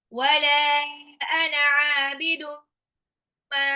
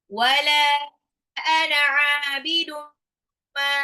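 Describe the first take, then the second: The two takes are said the same way.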